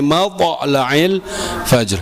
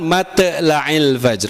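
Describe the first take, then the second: First: The t sound is heavy and emphatic. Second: The t sound is light and thin. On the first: The speaker calls it right. "tapi matla'il fajr" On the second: The speaker calls it wrong. "Bukan matla'il fajr, enggak"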